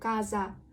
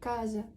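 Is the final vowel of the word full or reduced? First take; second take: full; reduced. First: The final vowel is a full, open a. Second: The final vowel is a reduced, relaxed sound. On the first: The speaker calls it wrong. "Я не кажу каза" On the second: The speaker calls it right. "я кажу каза, прикрита"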